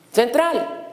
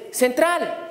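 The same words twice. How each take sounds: The two takes are said the same way.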